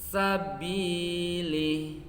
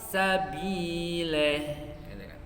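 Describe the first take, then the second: First: The final vowel sounds like a full i. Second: The final vowel sounds like e. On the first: The speaker calls it right. "kan sempurna" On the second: The speaker calls it wrong. "sulit membunyikan huruf i, malah kepada huruf e"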